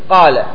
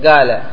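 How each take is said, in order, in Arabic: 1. الحرف الأول هو القاف الفصيحة. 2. الحرف الأول هو النطق اليمني الدارج. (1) "والصحيح أن تقول قال" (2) "يقولون قال"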